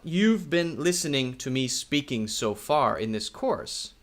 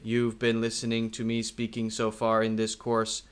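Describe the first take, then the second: First: The pitch rises and falls with lively expression. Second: The pitch stays level with no lively expression. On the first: The speaker calls it right. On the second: The speaker calls it wrong.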